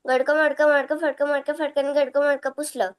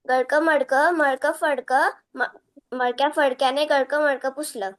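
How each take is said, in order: First: The tongue twister is said fast. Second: The tongue twister is said slowly.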